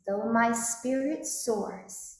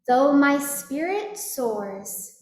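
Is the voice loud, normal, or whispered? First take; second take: normal; loud. First: It is spoken at normal volume. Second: It is spoken very loudly. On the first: "And now in a speaking voice" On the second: "speaking loudly after me"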